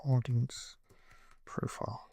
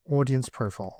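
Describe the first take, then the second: First: Soft murmur trailing into a whisper; quiet murmur. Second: Said in the usual way. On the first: Real, not acted. Typing the audience field, murmuring to himself into a whisper. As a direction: mouth it to yourself as you type.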